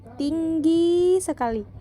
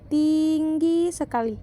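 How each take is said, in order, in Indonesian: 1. Suku kata kedua tinggi diucapkan lebih panjang. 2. Suku kata pertama tinggi diucapkan lebih panjang. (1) "Sedangkan dalam hal yang kedua, i dari segmen gi diucapkan lebih lama" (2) "Dalam hal yang pertama, i dari segmen ting diucapkan lebih lama"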